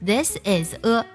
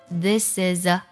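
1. 每个单词都单独读，不连读。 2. 词尾辅音会顺畅地连到下一个元音上。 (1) "而不是" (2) "所以前面三个单词就会读作"

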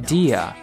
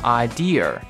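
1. 结尾不卷舌。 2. 结尾要发成卷舌音。

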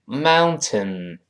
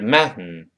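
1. 它读得慢，最后一个音节完整地读出来。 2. 它读得快，t 音带鼻音地释放。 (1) "读慢了叫mountain" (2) "那么读快了呢是mountain"

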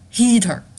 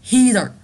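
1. 中间的 t 是完整、清晰的 t。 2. 中间的 t 是快速的 d 音。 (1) "大家注意不要把它翻成heater" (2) "我们是heater 同样的规则"

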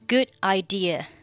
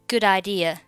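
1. 'good' 的 d 不发音。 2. 'good' 的 d 连到 'idea' 上。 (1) "或者是选择good 末尾的不发音" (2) "Good idea 可以连读成good idea"

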